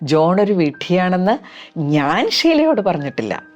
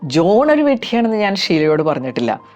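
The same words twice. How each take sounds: First: The stress falls on the word ഞാൻ. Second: The stress falls on the word John. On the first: Others may have said it, but not the speaker. "വേറെ ഒരുപാട് പേര് പറഞ്ഞു കാണും, പക്ഷെ ഞാൻ പറഞ്ഞിട്ടില്ല" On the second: Others were called idiots, but not this person. "John എന്ന ഭാഗത്തിന് സ്ട്രെസ് കൊടുത്ത് ഇതൊന്ന് റിപ്പീറ്റ് ചെയ്യാം"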